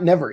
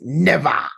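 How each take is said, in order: First: The word is said softly without strong articulation. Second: The word is said forcefully with strong articulation. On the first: The speaker calls it wrong. "it's not never" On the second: The speaker calls it right. "you got to enunciate more"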